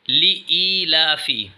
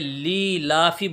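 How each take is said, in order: First: An extra 'ee' sound follows the first syllable. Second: The 'ee' sound after the first syllable is dropped. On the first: The speaker calls it right. "बल्कि ई की आवाज़ आएगी" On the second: The speaker calls it wrong. "इसमें हम गलती ये करते हैं कि ली-ला-फी बोल देते हैं"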